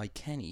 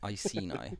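First: The C is said as a K sound. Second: The C is said as an S sound. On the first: The speaker calls it wrong. "I was using the C, as a K, like in Welsh" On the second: The speaker calls it right. "it's pronounced Iceni ... to have it as an S sound"

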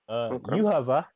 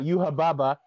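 First: The name is said with a V sound. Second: The name is said with B sounds. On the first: The speaker calls it right. "The English translation is incorrect" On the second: The speaker calls it wrong. "That's how you say it in Japanese because they don't have V sounds"

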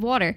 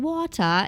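First: The word is said with an American accent. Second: The word is said with a British accent.

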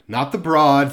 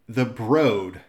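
First: The vowel in Broad rhymes with sawed. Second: The vowel in Broad rhymes with road. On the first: The speaker calls it wrong. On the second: The speaker calls it right.

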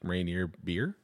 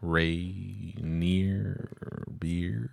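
First: It is said plainly, in a normal voice. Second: It is drawn out, imitating the commercial.

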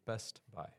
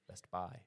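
First: The stress falls on the first word. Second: The stress falls on the second word. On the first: This is how the speaker says it. The speaker calls it right. "It's Best Buy" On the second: This is how people in the Northeast say it. The speaker calls it wrong. "They say Best Buy. They put emphasis on the buy"

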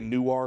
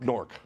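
First: The name is said with two full syllables. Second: The name is squeezed into one syllable. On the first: The speaker calls it wrong. "we don't say Newark" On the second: The speaker calls it right. "we say Nork"

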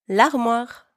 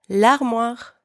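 The two takes are said the same way.

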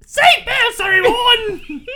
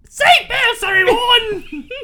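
First: It is said in a British queen-like accent. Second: It is said in a British queen-like accent.

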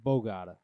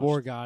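First: The r in the first syllable is dropped. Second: The r in the first syllable is pronounced. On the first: The speaker calls it right. "It's spelled like that, but don't say it like that" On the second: The speaker calls it wrong. "don't say Borgata"

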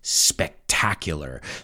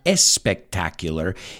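First: The word begins directly with the 's' sound. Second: An extra 'e' vowel comes before the 's'. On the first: The speaker calls it right. "it's spectacular" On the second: The speaker calls it wrong. "that word does not have an E in front of it. It's not espectacular"

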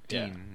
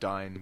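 First: The vowel sounds like the one in 'bean'. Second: The vowel sounds like the one in 'fine'. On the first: "I call him Dean" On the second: "Not Dine"

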